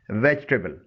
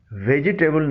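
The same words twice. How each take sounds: First: ویجیٹیبل said "VEJ-tuh-bul"; correct vegetable pronunciation. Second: ویجیٹیبل said "ve-ji-TAY-bul"; wrong vegetable pronunciation. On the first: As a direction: drop the middle i of ویجیٹیبل. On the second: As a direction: sound the middle i in ویجیٹیبل. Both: Shown as a demonstration. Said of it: "نہیں بولنا چاہیے".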